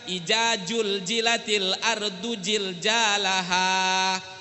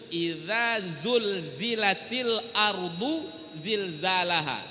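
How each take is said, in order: First: The z sounds are pronounced as j. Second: The z sounds are pronounced as z. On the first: The speaker calls it wrong. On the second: The speaker calls it right.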